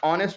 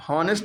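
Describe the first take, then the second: First: ऑनेस्ट with silent h, beginning on o; correct pronunciation. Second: हॉनेस्ट with the h sounded; wrong pronunciation. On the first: Teacher giving students the right ऑनेस्ट with a silent h. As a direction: say ऑनेस्ट without any h. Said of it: "एच silent है". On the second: Teacher warning students off हॉनेस्ट with a sounded h. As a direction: say हॉनेस्ट with a clear h at the start. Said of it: "हॉनेस्ट नहीं पढ़ेंगे". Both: Shown as a demonstration.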